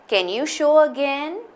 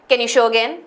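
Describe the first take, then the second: First: It is said in a calm, neutral tone. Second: It is said in an angry tone.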